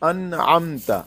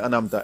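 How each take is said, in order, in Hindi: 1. शब्द एक समान, बिना हड़बड़ी की गति से कहा गया है। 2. पूरा शब्द जल्दी-जल्दी पढ़ा गया है। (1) "नून पर देर नहीं लगानी" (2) "ये नहीं करना कि हमने सारा लफ्ज जल्दी से अनामता, ऐसे नहीं"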